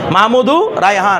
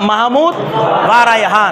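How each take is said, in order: First: The word 'and' merges into the first name. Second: The word 'va' is a separate syllable. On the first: The speaker calls it right. "এটার সাথে মিলে যাবে মাহমুদু Raihan" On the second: The speaker calls it wrong. "এটা লজিক্যালি হওয়ার দরকার ছিল"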